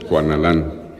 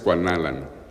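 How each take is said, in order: First: The last syllable carries the stress. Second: The last syllable is not stressed. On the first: This is the hispanicized form most people use. "cuando lo acentuamos es que lo estamos castellanizando" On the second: This is the original native form of the name. "originalmente es Cuanalan"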